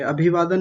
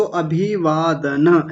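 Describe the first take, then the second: First: अभिवादन run together, ending on bare n; clipped final vowel. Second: अभिवादन syllable by syllable, ending in na; full final vowel. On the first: Teacher showing what not to say, अभिवादन closed on n. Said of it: "अभिवादन नहीं". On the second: Teacher correcting a student, अभिवादन with final a sounded. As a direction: open the end of अभिवादन to na. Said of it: "इसको अभिवादन ऐसा बोलेंगे". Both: Shown as a demonstration.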